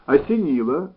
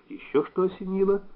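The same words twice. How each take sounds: First: ОСЕНИЛО echoed promptly, louder; prompt, firm ОСЕНИЛО with a lift; quick reply. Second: ОСЕНИЛО lifted high as a question; wary question. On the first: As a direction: fire ОСЕНИЛО straight back as an answer. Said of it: "быстро сказал Саинян". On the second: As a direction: ask with ОСЕНИЛО raised, a touch wary. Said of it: "с некоторым даже испугом". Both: A narrator's reading.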